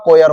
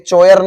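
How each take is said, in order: First: The word begins with a 'k' sound. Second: The word begins with a 'ch' sound. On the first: The speaker calls it right. "कोयर होता" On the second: The speaker calls it wrong. "ये चोयर नहीं होता"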